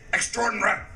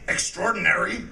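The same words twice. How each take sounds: First: The word is said in a British way. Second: The word is said in an American way. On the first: The speaker calls it wrong. "they say extraordinary. Why doesn't anybody tell them that they're wrong?" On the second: The speaker calls it right. "they don't say extraordinary"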